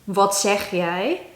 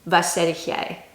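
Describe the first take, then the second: First: Every word is said in full. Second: Some sounds are dropped and the phrase is shortened. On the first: This is the standard Dutch form. "an example sentence" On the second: This is the regional dialect form. "in more of a shorter version"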